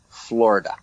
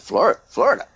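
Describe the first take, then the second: First: Said in the usual way. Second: High, stammered FLORIDA with a questioning rise; baffled question. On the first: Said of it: "I said, "You go tell Mark Crawford". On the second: Retold or imitated. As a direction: repeat Florida as if utterly confused. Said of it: "He said".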